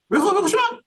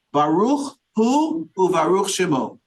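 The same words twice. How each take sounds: First: "Baruch hu u'baruch shemo" in a much higher, thin grandmother voice; imitating a grandmother's high-pitched blessing. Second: Said in the usual way. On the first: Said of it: "in this high-pitched voice".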